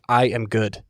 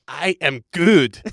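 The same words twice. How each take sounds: First: It is said in the speaker's normal voice. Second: It is said in a funny put-on voice.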